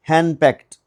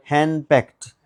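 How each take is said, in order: Both takes have the same delivery.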